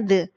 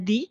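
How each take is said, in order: First: The vowel sounds like 'uh'. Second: The vowel sounds like 'ee'. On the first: The next noun starts with a consonant sound. "Kalau noun-nya diawali dengan pengucapan konsonan, cara bacanya the" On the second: The next noun starts with a vowel sound. "Kalau diawali noun-nya diawali dengan vokal, bacanya di"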